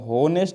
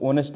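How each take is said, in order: First: The word begins with an h sound. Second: The word begins with a vowel sound. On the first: The speaker calls it wrong. "होनेस्ट नहीं बोलते हैं" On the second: The speaker calls it right. "ऑनेस्ट बोलते हैं"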